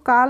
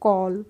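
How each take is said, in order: First: The vowel is an open 'aa' sound. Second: The vowel is a rounded 'aw' sound. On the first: The speaker calls it wrong. "हम इसको काल नहीं पढ़ते हैं" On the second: The speaker calls it right. "इसको हम पढ़ते हैं कॉल"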